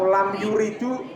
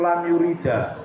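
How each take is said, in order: First: The last word ends with an added u vowel. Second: The last word ends with an added a vowel. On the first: "ya kamu di ditertawakan orang" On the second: "nggak boleh"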